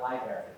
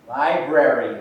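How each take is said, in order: First: The word is mumbled with a syllable reduced. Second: Every syllable of the word is clearly enunciated. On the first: The speaker calls it wrong. "Not library" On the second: The speaker calls it right.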